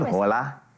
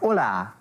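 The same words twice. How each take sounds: First: The greeting is said flat, with little energy. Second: The greeting is said with lively, punchy energy. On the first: The speaker calls it wrong. "not hola" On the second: The speaker calls it right. "but hola"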